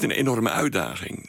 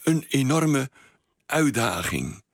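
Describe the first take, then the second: First: The words run together without any pause. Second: There is a slight pause inside the phrase. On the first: "Niet aan elkaar vast" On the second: "zo'n lichte pauze tussen"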